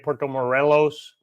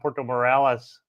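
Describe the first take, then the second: First: The second syllable of Morelos sounds like 'reh'. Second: The second syllable of Morelos sounds like 'rah'. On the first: The speaker calls it right. "It's actually Puerto Morelos" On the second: The speaker calls it wrong. "I kept saying uh, Puerto Morales the whole time"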